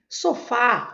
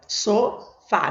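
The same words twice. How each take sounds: First: Said in the usual way. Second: "sofá" slowly split into two syllables. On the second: Shown as a demonstration. Teacher counting syllables for students, "sofá" slowly split. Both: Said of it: "Eu começo a contar aqui".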